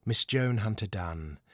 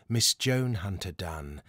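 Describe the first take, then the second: No difference in how they are said.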